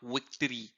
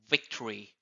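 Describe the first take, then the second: First: The first sound is made with rounded lips. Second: The first sound is made biting the lower lip. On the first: The speaker calls it wrong. "It's not victory" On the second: The speaker calls it right. "start with biting your lips"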